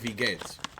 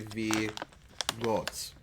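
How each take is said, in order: First: The vowel sounds like 'ay', the standard form. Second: The vowel sounds like 'oh', a southern dialect. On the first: "instead of V gates" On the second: "She would say V goats"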